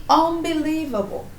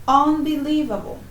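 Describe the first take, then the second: No difference in how they are said.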